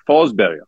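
The name is said the Swedish way.

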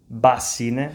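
It is said northern style, with a B sound.

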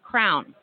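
Crayon is said in a Philadelphia accent.

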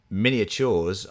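It is said with an American accent.

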